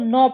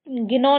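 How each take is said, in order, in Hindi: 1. शुरू का g silent है। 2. शुरू का g बोला जाता है। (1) "इसको नौ पढ़ते हैं" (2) "ये गिनो नहीं होगा"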